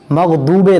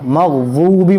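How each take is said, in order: First: The middle consonant is a plain d. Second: The middle consonant is thick and heavy. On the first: The speaker calls it wrong. "दाल निकालते हैं कुछ लोग" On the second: The speaker calls it right. "मोटा करके"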